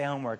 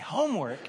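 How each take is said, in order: First: The word is said flatly, without enthusiasm. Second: The word is said with lively enthusiasm. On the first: The task sounds like a dull chore. The speaker calls it wrong. "and it's not that exciting" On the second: The task sounds like an exciting opportunity. The speaker calls it right. "I say it differently"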